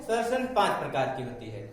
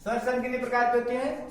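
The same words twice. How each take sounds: First: Lower, quick answer; answer to own question. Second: Said in the usual way. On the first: Shown as a demonstration. Teacher answering her own question, lower and fast.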